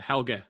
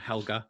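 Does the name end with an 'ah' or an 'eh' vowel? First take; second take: eh; ah. First: The name ends with an 'eh' vowel. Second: The name ends with an 'ah' vowel. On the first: The speaker calls it right. "I think it's meant to be Helge" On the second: The speaker calls it wrong. "we pronounce it Helga as if it's H E L G A"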